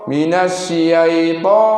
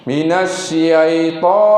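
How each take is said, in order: Both takes have the same delivery.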